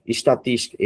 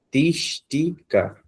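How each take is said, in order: First: Said in the usual way. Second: "estatística" slowed right down, high and long on tís; stressed syllable stretched. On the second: Shown as a demonstration. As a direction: split "estatística" slowly, lifting the syllable tís. ("estatística" bem devagar, destacando tís) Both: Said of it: "Temos um aqui também mais forte".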